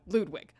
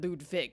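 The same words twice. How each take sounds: First: The W in the name sounds like a W. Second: The W in the name sounds like a V. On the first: This is how the game says it. "that's how uh, they're pronouncing it here" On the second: This is the German way of saying it. "my grandma, who is German, ... pronounced it Ludwig"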